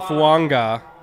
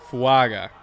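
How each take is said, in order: First: An n sound comes before the g. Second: No n sound comes before the g. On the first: The speaker calls it wrong. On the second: The speaker calls it right.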